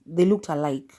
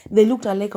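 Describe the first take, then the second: First: Said in the usual way. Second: They looked alike, louder with They pushed up high; emphatic repeat. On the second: Real, not acted. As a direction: hammer it home a second time.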